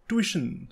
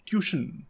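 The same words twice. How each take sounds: First: The first syllable sounds like 'twi'. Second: The first syllable sounds like 'tyoo'. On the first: The speaker calls it right. "इसकी सही pronunciation है ट्यूशन ... मतलब कि ट्वी" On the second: The speaker calls it wrong. "ना कि ट्यूशन ... ना कि ट्यू"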